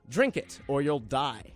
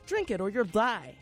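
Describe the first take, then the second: First: It is read in a threatening tone. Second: It is read in a non-threatening tone. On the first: "Sounds a bit threatening" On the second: "I could read it a different way and it wouldn't sound threatening"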